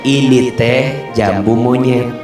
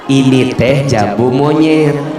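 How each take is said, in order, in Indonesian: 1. Diucapkan dengan datar, sebagai pernyataan netral. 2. Diucapkan dengan sindiran, terdengar seperti hinaan. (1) "Kalau bilangnya begini" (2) "Atau gini"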